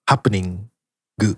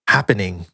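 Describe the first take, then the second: First: It is said with a Japanese accent, ending in 'gu'. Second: It is said with a plain English accent.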